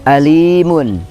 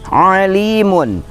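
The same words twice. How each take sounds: First: It begins with a plain glottal stop. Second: It begins with a throaty pharyngeal sound. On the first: Very painful. "Kalau hamzah" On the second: Knowing. "kalau ain"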